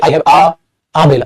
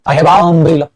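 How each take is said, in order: First: There is a break before 'umbrella'. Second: The vowels run together without a break. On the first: "break तो नहीं मारोगे, ... ऐसे तो नहीं करेंगे" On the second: "दोनों मिक्स हो जाएंगे"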